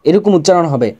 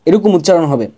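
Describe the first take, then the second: No difference in how they are said.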